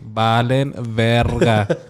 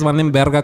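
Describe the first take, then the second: First: The phrase is said slowly and deliberately. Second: The phrase is said at a normal quick pace.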